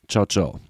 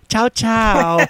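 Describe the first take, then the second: First: It is said in a condescending, dismissive tone. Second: It is said in a childish, babyish tone. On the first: The speaker looks down on the listener. "Dann ist es herablassen" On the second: The speaker sounds infantile. "dann ist das halt total infantil"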